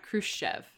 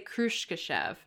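First: The name is said with two syllables. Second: The name is said with three syllables.

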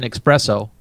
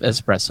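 First: The word is said with a ks sound. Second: The word is said with a plain s sound. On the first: The speaker calls it wrong. "let me have an espresso instead of espresso" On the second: The speaker calls it right. "It's espresso with an S"

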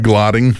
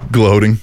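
First: The vowel is a short 'o' sound. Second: The vowel is a long 'oh' sound. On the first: The speaker calls it wrong. "and he said what? Glotting" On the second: The speaker calls it right. "He's supposed to say gloating"

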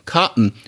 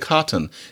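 First: The t in the middle is a glottal stop. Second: The t in the middle is clearly released. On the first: "but it's cotton. We do the glottal stop" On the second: "no, I say cotton"

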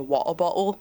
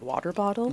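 First: It is said in a British accent. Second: It is said in a non-British accent. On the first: "British people say" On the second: "instead of"

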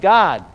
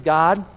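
First: It is said loudly with excited emphasis. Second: It is said plainly and calmly.

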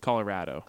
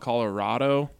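First: The word is said the local way. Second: The word is said the outsider way. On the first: The speaker is from the area. The speaker calls it right. "It's Colorado" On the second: The speaker is not from the area. The speaker calls it wrong. "people who aren't from here call it Colorado"

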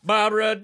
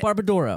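First: The name is said loudly like an enthusiastic announcer. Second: The name is said tentatively, without confidence. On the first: The speaker calls it right. "Say it with some confidence" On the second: The speaker calls it wrong. "You just got to be confident"

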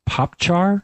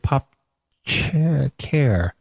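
First: The second syllable begins with a 'ch' sound. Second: The second syllable begins with a 'k' sound. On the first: "I'm doing char because that's usually how programmers pronounce" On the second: "it's the first four letters of the word character"

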